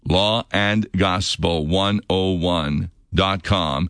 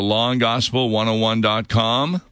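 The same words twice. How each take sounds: First: It is said slowly. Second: It is said at normal speed.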